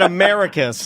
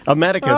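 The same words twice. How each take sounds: First: The name begins like the word America. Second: The name begins like the phrase a medic. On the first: The speaker calls it wrong. "like he's an uh, America Vespucci" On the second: The speaker calls it right. "like a medic"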